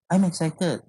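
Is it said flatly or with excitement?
flatly. It is said flatly, without excitement.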